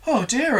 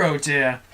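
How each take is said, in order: First: High, fretful oh dear; worried murmur. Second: Resigned worried murmur. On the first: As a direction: fret aloud like a frightened little creature. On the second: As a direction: let the worry sink down. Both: Acted. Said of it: "they murmured".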